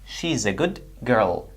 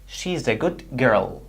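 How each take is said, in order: First: The end of 'good' is a d sound. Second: The end of 'good' is a d sound.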